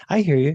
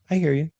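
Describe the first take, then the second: First: Curt, brushing-off I hear you; "I hear you" tossed off, stress on I; dismissive. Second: Genuine, attentive I hear you; "I hear you" said openly and sincerely. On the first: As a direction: say I hear you like you don't care. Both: Shown as a demonstration. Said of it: "there's a difference between".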